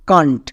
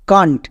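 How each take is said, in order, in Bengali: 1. এটা একটি সংকুচিত শব্দ হিসেবে বলা হয়। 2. এটা একটি সংকুচিত শব্দ হিসেবে বলা হয়।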